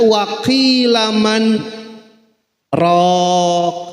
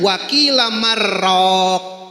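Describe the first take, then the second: First: A short breathless stop separates the words. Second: The words merge smoothly with no break. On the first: "karena ada saktah dibacanya" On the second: "Menurut ilmu tajwid dibacanya wakila marraq, idgham"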